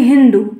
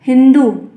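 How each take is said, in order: First: हिंदू said loudly with a long drawn oo at the end, as the mistake; teacher demonstrates the error हिंदू with long final oo; हिंदू dragged into a long oo sound; wrong pronunciation. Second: हिंदू said loud and firm with a short u at the end; teacher stresses हिंदू, clipped short final u; हिंदू, deliberately short closing u; correct pronunciation. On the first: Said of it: "ना कि". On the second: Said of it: "छोटी की मात्रा ध्यान लग". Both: Shown as a demonstration.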